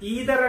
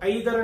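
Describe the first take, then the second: First: The first vowel sounds like 'ee'. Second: The first vowel sounds like 'eye'. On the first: It sounds more professional. The speaker calls it right. "ఈదర్ is more professional" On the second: It sounds less professional. The speaker calls it wrong. "ఐదర్ అని కూడా చెప్తూ ఉంటాం"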